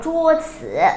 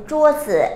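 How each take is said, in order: First: จื่อ wrongly given a full dipping third tone; mispronounced จัว จื่อ with heavy final จื่อ. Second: จื่อ short and light after จั่ว; จั่วจื่อ with an unstressed, toneless จื่อ; neutral tone. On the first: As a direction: stress จื่อ as a full syllable, not light. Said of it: "ไม่อ่านว่า". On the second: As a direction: drop the tone on the final จื่อ. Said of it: "จื่อเสียงเบา อย่างเช่น". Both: Shown as a demonstration.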